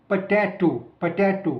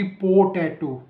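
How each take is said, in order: First: पोटैटो with a short, reduced "puh" opening; quick weak first syllable in पोटैटो, stress on the second; schwa first syllable. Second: पोटैटो with a drawn-out, full "poh" opening; unreduced long O in the first syllable of पोटैटो; full O sound. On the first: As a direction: say पोटैटो as puh-TAY-to, first vowel barely there. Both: Shown as a demonstration. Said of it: "ना कि पोटैटो".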